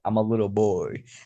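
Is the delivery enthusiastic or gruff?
gruff. It is said in a deep, gruff put-on voice. "I don't want to sound like I'm a little boy. ... I'm not trying to be like some Kratos"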